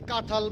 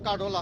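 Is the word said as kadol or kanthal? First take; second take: kanthal; kadol. First: It has a nasal vowel and a 'th' sound. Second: It has no nasal vowel and a 'd' sound. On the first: The speaker calls it right. "তোমারে বলছি কাঁঠাল বলতে" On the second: The speaker calls it wrong. "উচ্চারণ করো কাডল"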